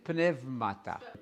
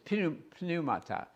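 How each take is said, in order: First: It uses the modern Greek pronunciation. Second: It uses the traditional classroom Greek pronunciation. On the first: "Modern Greek, that word is pneumata" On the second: "You learned it as pneumata"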